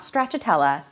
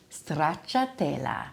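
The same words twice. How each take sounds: First: The R is not rolled. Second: The R is rolled with a trill. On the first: The speaker calls it wrong. "not stracciatella" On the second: The speaker calls it right. "You really have to roll that R"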